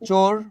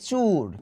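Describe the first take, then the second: First: The vowel sounds like 'o'. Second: The vowel sounds like 'u'. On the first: The speaker calls it right. "চোরকে আমরা বলি চুর" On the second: The speaker calls it wrong. "আমরা বলি চুর"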